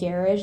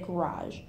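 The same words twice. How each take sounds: First: The word has a playful, joking pronunciation. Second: The word has its ordinary everyday pronunciation. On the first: It is said as a family joke. "jokingly I would say garage" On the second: It is the normal everyday way. "normally if I'm saying it, I would say garage"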